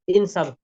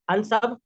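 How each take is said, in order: First: The word begins with an i vowel. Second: The word begins with an a vowel. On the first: The speaker calls it right. "बल्कि जेर लगाएंगे हम" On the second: The speaker calls it wrong. "तो हम जबर नहीं लगा सकते"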